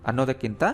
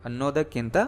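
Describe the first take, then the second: The two takes are said the same way.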